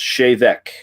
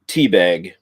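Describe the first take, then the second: First: It sounds like chev-ek, starting with ch. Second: It sounds like the English word teabag. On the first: It is the proper Gaelic pronunciation. The speaker calls it right. "it is actually pronounced Chevec" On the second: It is read straight from the spelling. The speaker calls it wrong. "it reads teabag"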